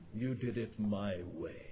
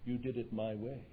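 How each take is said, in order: First: It is said in a dropped, low voice. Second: It is said in a normal voice.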